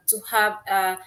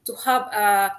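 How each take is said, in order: Both takes have the same delivery.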